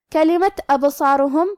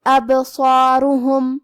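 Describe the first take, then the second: First: Said in the usual way. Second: ابصارہم with the ba bounced with a short echo, slowly chanted; slow chant, shake the ba in ابصارہم; qalqala on ba. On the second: Shown as a demonstration. Teacher demonstrates qalqala to students, slow chant. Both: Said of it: "ہلاتے ہوئے یہ کلمہ کو پڑھیں گے".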